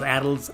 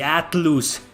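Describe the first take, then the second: First: The name is said with American English pronunciation. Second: The name is said with Spanish-style pronunciation. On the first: "not Atlus" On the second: "I pronounce it the uh, the Spanish way"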